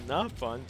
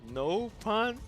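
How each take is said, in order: First: The first syllable sounds like 'not'. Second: The first syllable sounds like 'no'. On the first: The speaker calls it right. "It's supposed to be not pun" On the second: The speaker calls it wrong. "they mispronounced uh, uh, the no font and pronounce it as no pun"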